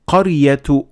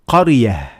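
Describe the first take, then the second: First: The word ends with a t sound. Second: The word ends with an h sound. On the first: The reader continues to the next word. "if you keep on reading, you pronounce it as a ta" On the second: The reader stops after this word. "if you stop at the word, you pronounce it as a ha"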